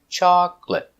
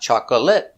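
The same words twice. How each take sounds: First: The word is said with two syllables. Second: The word is said with three syllables. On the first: The speaker calls it right. "Remember, two syllables" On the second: The speaker calls it wrong. "Not chocolate, not three"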